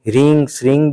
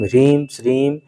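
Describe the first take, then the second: First: The syllables end with a nasalized vowel. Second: The syllables end with a clear m sound. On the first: "कहीं कहीं ह्रीं श्रीं भी करते हैं" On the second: "इनका मंत्र है"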